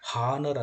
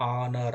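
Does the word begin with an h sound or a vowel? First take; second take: h sound; vowel. First: The word begins with an audible h sound. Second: The word begins directly with a vowel sound. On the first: The speaker calls it wrong. "ಹಾನರ್ ಅನ್ಬಾರ್ದು" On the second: The speaker calls it right. "ಎಚ್ silent letter"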